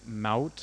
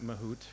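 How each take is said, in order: First: The last syllable rhymes with trout. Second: The last syllable does not rhyme with trout. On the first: The speaker calls it right. "it's pronounced like trout" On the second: The speaker calls it wrong. "I've been calling it Mahout for ages"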